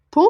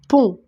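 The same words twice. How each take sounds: First: Pont jumps up high with a rising tune; Pont, high and rising like a question. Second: Said in the usual way. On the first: Shown as a demonstration. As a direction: lift Pont up as if checking it. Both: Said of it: "Pont, c'est une syllabe".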